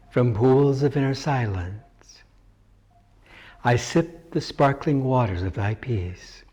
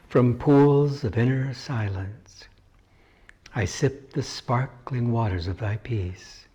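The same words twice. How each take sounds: First: It is spoken aloud at normal volume. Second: It is spoken aloud but more quietly.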